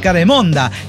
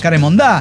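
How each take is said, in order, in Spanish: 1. La sílaba tónica es la penúltima. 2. La sílaba tónica es la última. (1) "yo lo leí sin acento y dice caremonda" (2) "lo acentuó así"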